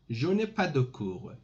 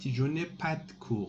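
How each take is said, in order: First: Every syllable is pronounced fully and carefully. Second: Sounds are dropped and run together casually.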